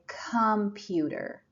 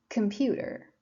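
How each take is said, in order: First: The first vowel is full and clear. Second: The first vowel is short and weak. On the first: The speaker calls it wrong. "we don't say computer. That's wrong" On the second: The speaker calls it right. "We say computer"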